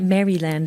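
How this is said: It is said the way British speakers say it. "as you would say here"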